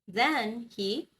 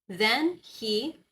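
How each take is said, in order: No difference in how they are said.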